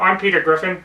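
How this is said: It is said hesitantly and awkwardly. "very awkward"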